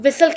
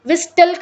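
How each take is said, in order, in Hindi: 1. t की आवाज़ पूरी तरह छोड़ दी जाती है। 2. बीच में t की आवाज़ बोली जाती है। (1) "हम इसे विसल कहते हैं" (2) "विस्टल करके नहीं बोलते"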